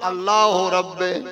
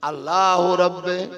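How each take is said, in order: First: The last word ends in an 'e' vowel. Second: The last word ends in an 'e' vowel.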